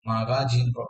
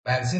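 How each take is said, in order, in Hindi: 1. हर स्वर पूरी तरह बोला जाता है, अक्षर-दर-अक्षर। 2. आम बोलचाल में स्वर हल्के कर दिए जाते हैं। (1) "हम इसको मागाजीन याद" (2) "मैगजीन ही बोलते हैं"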